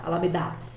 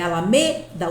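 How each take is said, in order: First: The stress is on the last syllable, da. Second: The stress is on the third syllable, me. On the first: The speaker calls it wrong. "não é o da" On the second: The speaker calls it right. "o me é forte"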